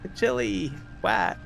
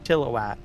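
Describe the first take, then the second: First: The middle vowel is full, like 'chili'. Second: The middle vowel is barely heard. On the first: "there's a lot of people they'll say chili whack" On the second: "not so much of an emphasis on I"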